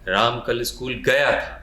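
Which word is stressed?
गया. The word गया is stressed.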